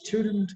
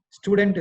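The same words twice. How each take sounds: First: "student" as STYOO-dnt, light ending; corrected pronunciation. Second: "Student" as STOO-dent, hard and full; heavy two-beat "Student"; wrong pronunciation. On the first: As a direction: say "student" with a you-glide and reduced second syllable. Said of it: "It's student". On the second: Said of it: "Student is wrong". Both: Shown as a demonstration.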